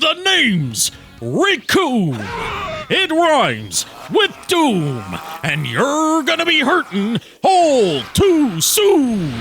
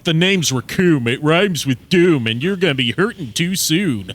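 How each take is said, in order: First: It is boomed out like a pro wrestler. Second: It is said casually, without any showmanship.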